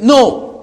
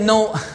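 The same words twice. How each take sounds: First: The word is said firmly and forcefully. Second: The word is said weakly and hesitantly. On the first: The refusal is final and decisive. The speaker calls it right. "You must be aggressive... you need to be firm" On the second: The refusal sounds unsure and could be overcome. The speaker calls it wrong. "Don't say"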